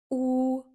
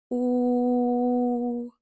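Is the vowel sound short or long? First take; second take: short; long. First: The vowel is said short. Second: The vowel is drawn out long. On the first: "мы произносим букву «у»" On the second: "мы протягиваем «у»"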